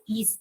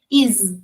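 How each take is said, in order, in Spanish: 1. La palabra termina en un sonido s silbante. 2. La palabra termina en un sonido z zumbante. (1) "no es is" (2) "con Z"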